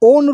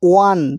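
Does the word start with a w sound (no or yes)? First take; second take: no; yes. First: The word starts with a plain o vowel. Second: The word starts with a w sound. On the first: The speaker calls it wrong. "আমরা ওন rupee বলি না" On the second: The speaker calls it right. "ওয়া হচ্ছে"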